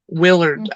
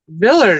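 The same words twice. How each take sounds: First: The name begins with a W sound. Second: The name begins with a V sound. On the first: "who's for me to say W's" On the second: "W's are pronounced like V"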